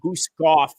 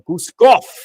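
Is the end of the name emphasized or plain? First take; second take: plain; emphasized. First: The name ends plainly, without extra emphasis. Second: The name ends with strong, forceful emphasis. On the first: The speaker calls it wrong. "you can't just say Guskov" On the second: The speaker calls it right. "You gotta say it with an emphasis in the end"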